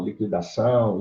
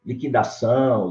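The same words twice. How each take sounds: First: "liquidação" said li-kwi-da-ção, u sounded; "liquidação" with the u clearly voiced; u pronounced. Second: "Liquidação" said as li-ki-da-ção, u silent; "Liquidação" with qu like a plain k; "Liquidação" without the u sound. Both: Shown as a demonstration. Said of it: "pronunciando o ou não pronunciando o".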